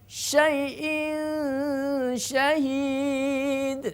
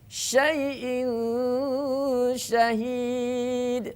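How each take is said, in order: No difference in how they are said.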